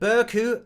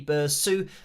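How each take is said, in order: First: The middle consonant is a hard K sound. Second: The middle consonant is a soft S sound. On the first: "I said it with the abrupt C of Burku" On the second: "a C pronounced like an S"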